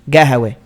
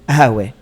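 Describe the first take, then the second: First: It is said with a g sound at the start. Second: It is said with no consonant at the start.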